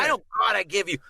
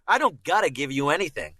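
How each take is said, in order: First: "gotta" with a broad, exaggerated ah, pitched up; mistaken Boston accent. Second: "gotta" with a short, everyday vowel; native Boston vowel. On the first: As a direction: overdo the first vowel of "gotta". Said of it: "never heard anybody in Boston go". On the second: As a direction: say "gotta" casually, without opening the vowel. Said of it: "We pronounce it got". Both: Shown as a demonstration.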